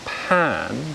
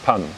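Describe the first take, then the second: First: It has a British vowel and stronger aspiration. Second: It has a Japanese vowel and weaker aspiration. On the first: "British at sound that you hear in the second syllable" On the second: "the at sound that you hear in Japanese"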